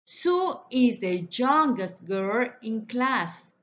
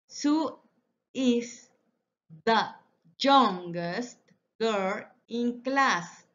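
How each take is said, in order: First: Said in the usual way. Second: Each word set apart, slow and clear. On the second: Shown as a demonstration. Teacher to class, modelling the sentence slowly word by word. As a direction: spell it out one word at a time for the class.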